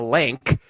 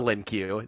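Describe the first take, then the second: First: The name ends in a plain K sound. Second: The name ends with the letter Q spelled out. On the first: The speaker calls it right. "not the Lin Q, the Link" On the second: The speaker calls it wrong. "our Canadian friend referred to as the Lin Q"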